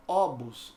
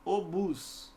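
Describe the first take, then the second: First: Obus with the stress on O; wrongly stressed first syllable. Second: Obus drawn out slowly on BUS; stress on last syllable. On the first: Teacher showing the mistake, obus stressed at the start. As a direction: say obus as Ó-bus. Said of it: "não é obus". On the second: Teacher correcting the mistake, slow obus stressed on the end. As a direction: say obus as o-BÚS. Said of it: "é obus". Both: Shown as a demonstration.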